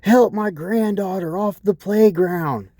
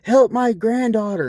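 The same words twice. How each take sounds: First: High, slow mock old-lady wail. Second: Very high mocking whine; mock old lady. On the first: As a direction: whine it like a tipsy old lady. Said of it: "she's all like". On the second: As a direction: parody her cry, pitched way up. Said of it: "I'm like".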